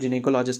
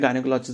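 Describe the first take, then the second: First: The word begins with a 'jin' sound. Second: The word begins with a 'guy' sound. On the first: "इसका जो correct pronunciation है वो जिनेकोलॉजिस्ट है" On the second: "वैसे हम अपनी आम भाषा में गायनेकोलॉजिस्ट भी बोल लेते हैं"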